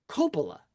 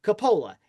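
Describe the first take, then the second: First: Coppola with the stress on the first syllable, KOH-po-la; the uncle's French way of saying Coppola; French pronunciation. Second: Coppola with the stress on the middle syllable, co-POH-la; the dad's American way of saying Coppola; American pronunciation. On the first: Scene: uncle with a French accent saying the family name, stress on the first syllable. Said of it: "my dad's brother said". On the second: Scene: dad without an accent saying his name, stress on the middle syllable. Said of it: "my dad said". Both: Retold or imitated.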